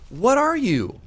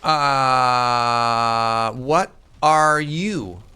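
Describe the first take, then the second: First: High, loud disbelieving question; high incredulous shout. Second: Drawn-out, eerie question; slow spooked voice. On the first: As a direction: yelp it out in disbelief. Confronting monster again. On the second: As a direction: stretch it out, unnerved. Confronting monster in game. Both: Pretend.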